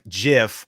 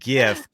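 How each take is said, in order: First: The word begins with a j sound. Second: The word begins with a hard g sound. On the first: "J I F F" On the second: "G I F"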